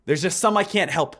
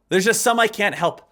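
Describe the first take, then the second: No difference in how they are said.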